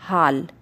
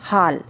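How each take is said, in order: No difference in how they are said.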